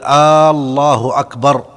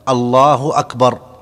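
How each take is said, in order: First: The opening vowel is drawn out. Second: No vowel is drawn out. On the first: The speaker calls it wrong. "أن لا يمد الهمزة في الله" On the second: The speaker calls it right. "أن تكون بهذا اللفظ الله أكبر"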